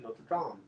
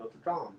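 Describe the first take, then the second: First: The name is said in a French-sounding way. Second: The name is said in a French-sounding way.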